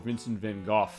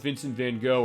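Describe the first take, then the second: First: The name is said with a more exact pronunciation. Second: The name is said the everyday English way. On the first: "if you want to be uh, specific with the pronunciation" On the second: "a takeoff on Vincent van Gogh"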